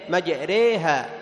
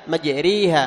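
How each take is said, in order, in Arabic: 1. الصوت بعد الراء يميل فقط نحو 'ee'. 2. الصوت بعد الراء يصير 'ee' كاملا. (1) "لا هي إمالة فقط، أي تنحو بها نحو الياء" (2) "بعض يخلص الإمالة حتى يجعلها ياء، مجريها هذا خطأ"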